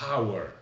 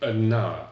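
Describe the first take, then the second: First: The article is a plain vowel with no n. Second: An n sound links the article to hour. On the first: The speaker calls it wrong. "on ne dit pas euh" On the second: The speaker calls it right. "mais an hour"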